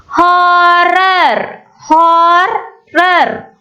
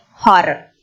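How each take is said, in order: First: "Horror" stretched out as hor-ror; split into syllables. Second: Said in the usual way. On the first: Shown as a demonstration. Teacher counting two syllables, "Horror" split syllable by syllable. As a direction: say "Horror" in two long, even beats. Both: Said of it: "Two syllables".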